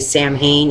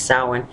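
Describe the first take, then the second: First: It is sounded out letter by letter. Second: It is sounded unlike its letters. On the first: The speaker calls it wrong. "A lot of people don't understand. They say Samhain" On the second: The speaker calls it right. "It's Samhain"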